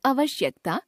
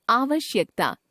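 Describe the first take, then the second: First: आवश्यकता opening on short "a"; mispronounced first vowel. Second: Said in the usual way. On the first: Shown as a demonstration. Teacher showing a common error, आवश्यकता with short first vowel. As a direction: start आवश्यकता with a brief "uh". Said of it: "अशुद्ध". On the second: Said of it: "शुद्ध".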